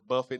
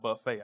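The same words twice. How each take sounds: First: The word ends with a 't' sound. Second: The word ends with an 'ay' sound. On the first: It means to strike repeatedly. The speaker calls it right. "That word is buffet" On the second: It means a self-service meal. The speaker calls it wrong. "not buffet. I know you guys are hungry"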